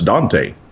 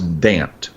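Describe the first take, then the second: First: The name ends with a vowel sound. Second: The name ends with a consonant sound. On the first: This is the literary pronunciation. "if you're a literature fan, that's Dante" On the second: This is how the town's locals say it. "No, no, it's Dant"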